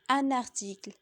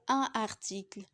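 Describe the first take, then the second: First: The n is linked into the next word. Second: The n is not linked to the next word. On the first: The speaker calls it right. "la liaison est obligatoire entre un déterminant et un nom" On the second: The speaker calls it wrong. "Ce serait faux de dire"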